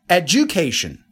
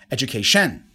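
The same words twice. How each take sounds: First: The stress falls on the second syllable. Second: The stress falls on the fourth syllable. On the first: "Second one" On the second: "And number four"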